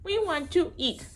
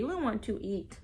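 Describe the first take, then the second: First: We want to eat sung higher; higher sing-song. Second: Said in the usual way. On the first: Real, not acted. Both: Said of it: "repeated to baby".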